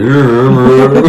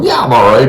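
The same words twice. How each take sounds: First: Mock slurred drugged voice, breaking into laughs; groggy patient laughing through her words; drugged and woozy, laughing. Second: Said in the usual way. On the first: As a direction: play someone high on painkillers, louder and giggly. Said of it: "But apparently I was like". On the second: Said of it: "I'm going".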